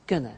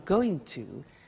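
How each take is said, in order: First: The words are squeezed into one short word. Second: Both words are said in full, separately.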